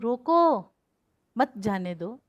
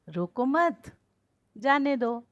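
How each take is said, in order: First: The pause comes after the first word. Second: The pause comes after the second word. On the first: The listener is told to stop it. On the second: The listener is told not to stop it.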